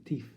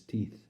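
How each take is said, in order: First: "teeth" with final f for th; impaired speech. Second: Said in the usual way. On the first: Acted. Poet giving Keith's word for his teeth, impaired "teef". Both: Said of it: "to him he called them".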